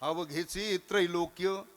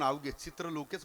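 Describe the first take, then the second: First: The words are joined as avaghechi trailokya. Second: The words are split as chitra lokech. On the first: The speaker calls it right. "त्रैलोक्य कधी होईल?" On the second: The speaker calls it wrong. "रोज हरिपाठ करणारे माणसं सुद्धा अजून अवघे चित्रलोकेच म्हणतात"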